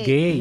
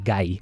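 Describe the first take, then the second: First: The vowel sounds like the one in 'day'. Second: The vowel sounds like the one in 'my'. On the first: The speaker calls it wrong. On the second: The speaker calls it right. "Pero ang pronunciation niya ay guy"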